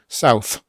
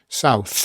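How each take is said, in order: Both takes have the same delivery.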